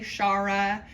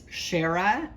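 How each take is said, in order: First: The first syllable does not sound like 'share'. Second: The first syllable sounds like 'share'. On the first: This is how other people say the name. The speaker calls it wrong. "Some people say Shara" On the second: This is how the name's owner says it. The speaker calls it right. "That's how my parents pronounced it, and that's how I pronounce it"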